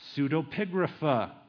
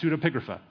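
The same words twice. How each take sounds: First: It is said slowly with hesitant breaks. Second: It is said quickly in one smooth go. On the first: "I'm saying it with hesitations like Captain Kirk" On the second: "I'll say it fast"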